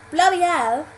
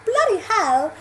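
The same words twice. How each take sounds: First: Louder, higher British exclamation with dropped h; broad British accent. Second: Higher, louder posh British question; posh British accent. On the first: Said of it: "would sound particularly British". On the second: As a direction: try "bloody hell" as posh British people would. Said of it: "do posh people say bloody". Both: Shown as a demonstration.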